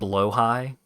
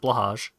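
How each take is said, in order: First: The word ends with an 'eye' sound. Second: The word ends with a 'j' sound. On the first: "pronounced blow high" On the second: "I will continue to pronounce it blahage"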